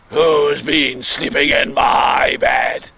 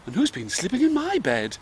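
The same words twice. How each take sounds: First: Slow, growling big bear shout; deep, gruff father bear. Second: High, soft mummy bear voice; kind, polite mother bear. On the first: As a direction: roar it slowly as daddy bear. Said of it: "in his deep, gruff voice". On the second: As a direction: ask it gently, pitched up. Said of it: "in a kind, polite voice". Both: Acted.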